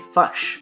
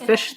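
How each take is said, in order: First: The vowel is a 'u'-like New Zealand sound. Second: The vowel is a clear short 'i' sound. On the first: This is how the children will say it with a Kiwi accent. "they'll say fush" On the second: This is how the parents say it. "Instead of fish"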